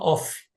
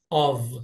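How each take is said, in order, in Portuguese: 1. A palavra termina com som de F. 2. A palavra termina com som de V. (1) "O pessoal fala off. Não" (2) "o som dela é V"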